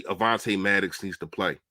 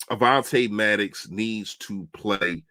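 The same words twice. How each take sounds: First: Said in the usual way. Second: "Avonte Maddox needs to play" said slowly, every word weighed; slow it right down to drive the point home; deliberate slow restatement for emphasis; slow emphatic repeat. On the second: Shown as a demonstration.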